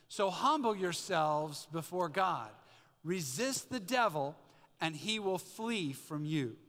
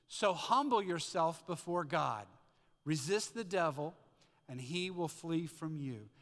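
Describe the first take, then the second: First: It is said forcefully, with conviction. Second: It is read plainly, without much conviction.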